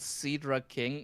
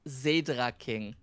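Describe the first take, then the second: First: The name begins with a hissing S sound. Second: The name begins with a buzzing Z sound. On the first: The speaker calls it wrong. "It's not even Cedra King" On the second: The speaker calls it right. "It's Zedra King"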